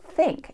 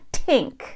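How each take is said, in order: First: It begins with a standard th sound. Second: It begins with a strongly aspirated t sound. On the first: "it's not think" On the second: "It's not a t aspirated t"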